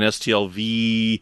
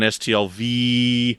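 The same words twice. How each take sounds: First: The final V is drawn out longer still. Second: The final V is drawn out the longest. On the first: It stands for the third year. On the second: It stands for the fourth year.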